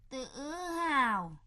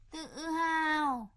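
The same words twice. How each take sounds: First: Said in the usual way. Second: Tự hào drawn out slowly, mocking; sneering. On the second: Stepmother mocking the father's pride, repeating "tự hào" slowly and scornfully.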